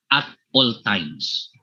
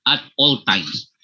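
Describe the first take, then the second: First: Said in the usual way. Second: "at all times" slowed down for emphasis; emphasized phrase. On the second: Real, not acted. Lecturer underlining a leadership lesson for participants, emphatic. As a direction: stretch out "at all times" deliberately. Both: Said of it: "May I emphasize the word".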